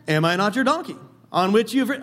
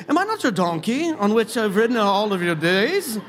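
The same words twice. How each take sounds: First: Said in the usual way. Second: Playful British accent, voicing the donkey. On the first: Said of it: "I just hear this almost like". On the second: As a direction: read it in a hammed-up British accent. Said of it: "almost like in a British accent".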